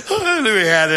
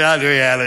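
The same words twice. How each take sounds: First: Mock smug, laughing. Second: Said in the usual way.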